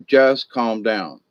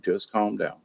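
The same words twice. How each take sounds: First: Said in the usual way. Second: Much softer, low soothing hush; calm and quiet. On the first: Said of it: "You just gotta say". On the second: Shown as a demonstration. Moderator telling fighters to settle, soft and hushed. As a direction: ease it out gently, almost under breath. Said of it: "You just have to say the same thing".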